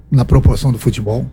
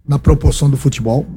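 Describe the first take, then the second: No difference in how they are said.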